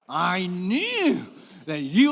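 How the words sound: It is said with an angry tone. The speaker calls it right. "You got to say this with anger"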